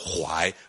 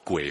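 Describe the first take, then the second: First: The word is read as huai. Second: The word is read as gui. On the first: The speaker calls it right. "这个字的读音要念作槐" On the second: The speaker calls it wrong. "不念作鬼"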